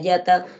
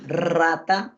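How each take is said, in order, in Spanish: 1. El primer sonido es una y, sin vibrar. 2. El primer sonido es una r vibrante. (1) "Cuando el niño dice la yata, su lengua no vibra" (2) "cuando yo digo rata, rata, mi lengua vibra"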